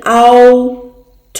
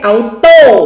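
First: The t is pronounced with a strong puff of air. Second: The t is pronounced without a puff of air. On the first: The speaker calls it right. "เอาโถนะคะเอานะคะ" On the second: The speaker calls it wrong. "ไม่ใช่เอาโต้นะคะ"

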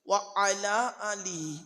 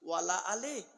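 First: It is said apart as 'wa ala ali'. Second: It is run together as 'wala ale'. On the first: The speaker calls it right. "আচ্ছা এটা কি?" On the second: The speaker calls it wrong. "ওয়ালা আলে বলে কোনো শব্দ নাই গো বাবা"

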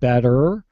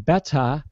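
First: The final R sound is clearly pronounced. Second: The final R sound is dropped. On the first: "instead of saying better" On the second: "they'll say beta"

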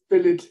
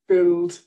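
First: The ending is said with an extra vowel. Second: The ending is said without an extra vowel.

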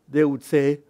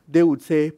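Both takes have the same delivery.

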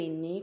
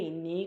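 Both takes have the same delivery.

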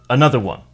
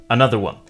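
Both takes have the same delivery.

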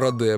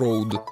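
First: The name is said with a Russian pronunciation. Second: The name is said with an Australian pronunciation. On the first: This is how local users say it. "а мы говорим Rode" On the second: This is how the company's own people say it. "а они говорят, что Rode"

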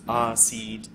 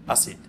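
First: The vowels are held long. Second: The vowels are said short. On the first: The speaker calls it right. "so it's Asid" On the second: The speaker calls it wrong. "not Asid"

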